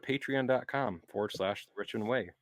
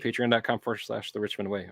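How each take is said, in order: First: It is said slowly, in a relaxed casual way. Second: It is said quickly, like rushed speed reading. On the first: The speaker calls it right. "Make it sound ca- conversational and casual, like you're not rushing" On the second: The speaker calls it wrong. "You didn't have to speed read it"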